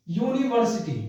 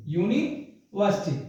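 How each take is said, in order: First: Said in the usual way. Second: यूनिवर्सिटी split in two, pause after "yoo-nee"; slow pronunciation. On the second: Shown as a demonstration. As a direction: say यूनिवर्सिटी slowly, opening on a clear "yoo". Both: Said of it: "आप एक बार इसे लिखिए".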